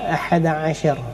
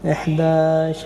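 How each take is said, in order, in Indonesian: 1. Katanya diucapkan lengkap jadi dua bagian. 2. Katanya disingkat jadi satu bentuk yang menyambung. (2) "bahasa pasar lah"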